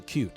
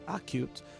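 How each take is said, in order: First: The stress is on the second syllable. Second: The stress is on the first syllable. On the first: The speaker calls it right. "It's it's on the second syllable" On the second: The speaker calls it wrong. "not acute"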